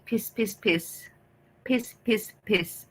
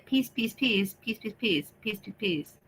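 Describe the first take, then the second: First: "peace" short and clipped like piss; peace as heard. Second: "peace" with long ee, fading softer; his real peace. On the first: Streamer showing how chat hears his "peace". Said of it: "how you think". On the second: Streamer showing the proper way he says "peace". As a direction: stretch the ee in "peace". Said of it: "when I say". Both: Shown as a demonstration.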